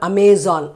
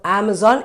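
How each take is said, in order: First: The first vowel is not the apple 'a'. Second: The first vowel is the 'a' of apple. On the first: The speaker calls it wrong. "it is not Amazon" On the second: The speaker calls it right. "So that is how it should be because these are the letters a sound"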